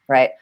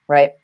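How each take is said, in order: No difference in how they are said.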